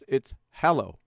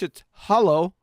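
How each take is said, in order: First: It is said with an American accent. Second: It is said with a Dutch accent.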